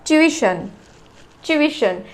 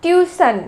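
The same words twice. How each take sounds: First: ट्यूशन as chu-ISH-un; ट्यूशन with ch and a separate i before shun; correct pronunciation. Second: ट्यूशन with a plain s, tyu-san; common mispronunciation. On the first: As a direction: start ट्यूशन with ch, in three syllables. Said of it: "इसका जो pronunciation है वो है". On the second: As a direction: say ट्यूशन as two syllables, TYU-sun. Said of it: "ट्यूशन बोलते हैं". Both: Shown as a demonstration.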